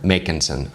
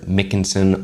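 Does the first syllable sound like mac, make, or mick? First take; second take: make; mick. First: The first syllable sounds like make. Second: The first syllable sounds like mick. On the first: The speaker calls it right. "It's Make" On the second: The speaker calls it wrong. "I'm not a Mick"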